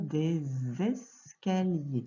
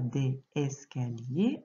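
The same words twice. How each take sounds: First: The words are linked with a z sound. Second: The words are said without a linking z sound. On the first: The speaker calls it right. "on va dire des escaliers" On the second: The speaker calls it wrong. "on ne va pas dire des escaliers"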